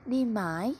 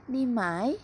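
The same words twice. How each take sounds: The two takes are said the same way.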